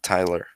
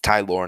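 First: The name ends with an 'er' sound. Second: The name ends with an 'or' sound. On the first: The speaker calls it wrong. "not E-R" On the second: The speaker calls it right. "O-R, not E-R"

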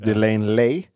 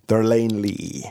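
First: The first syllable is 'de' and it ends 'lay'. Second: The first syllable is 'der' and it ends 'lee'. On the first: The speaker calls it wrong. "They mention it all the time as Delane Lay" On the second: The speaker calls it right. "Der, even, with an R sound"

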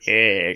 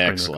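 First: It is said in a Mister Burns impression. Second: It is said in a normal voice.

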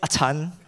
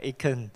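First: The name is said with a Cantonese pronunciation. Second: The name is said with an American pronunciation. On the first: "Cantonese will say Achan" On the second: "the Americans will pronounce it Achan. Wow, very, very refined"

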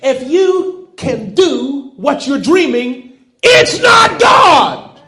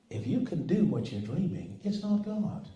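First: It is said loudly. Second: It is said quietly.

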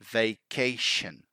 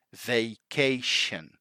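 The two takes are said the same way.

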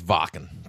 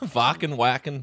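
First: The name is said with a German pronunciation. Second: The name is said with an English pronunciation. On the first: This is the correct original pronunciation. "to be correct German pronunciation" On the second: This is how most people say it. "however everyone says"

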